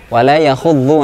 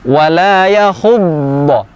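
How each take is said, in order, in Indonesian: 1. Konsonan emfatis terdengar tipis dan ringan. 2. Konsonan emfatis terdengar penuh dan berat. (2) "lebih berat"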